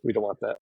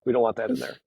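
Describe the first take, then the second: First: Said in the usual way. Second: "We don't want that in there" jumped much higher; playful high pitch; high mock voice. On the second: Shown as a demonstration. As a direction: pop the line up high, half-joking. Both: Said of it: "I realized I went like this".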